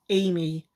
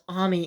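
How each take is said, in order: First: The name is said the English way. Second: The name is said the Japanese way. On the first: The speaker calls it right. "it actually is pronounced Amy" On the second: The speaker calls it wrong. "he pronounced it as Ami in Japanese"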